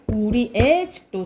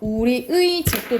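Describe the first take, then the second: First: The particle is pronounced as the vowel e. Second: The particle is pronounced as the diphthong ui. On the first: "애도 가능합니다" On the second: "조사 의는 의로 발음하는 게 원칙"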